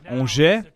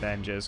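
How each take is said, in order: First: The name is said with a French pronunciation. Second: The name is said as read, anglicized. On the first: This is the proper way to say the name. The speaker calls it right. "That's how you say it" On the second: The name was simply read as it is spelled. The speaker calls it wrong. "I just went with Angers because I don't know"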